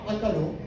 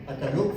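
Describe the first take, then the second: First: No syllable carries special stress. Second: The stress falls on the last syllable. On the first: They ate. "هنا ما في نبره" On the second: They ate it. "في نبره في المقطع الاخير"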